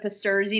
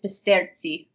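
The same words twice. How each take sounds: First: The name is said the American way. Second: The name is said the Italian way.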